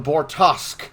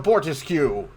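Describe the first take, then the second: First: The name ends with a 'tosk' sound. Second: The name ends with a 'tisk' sound. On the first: The speaker calls it right. "The ship is called the Bortosk" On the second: The speaker calls it wrong. "not the Bortisque"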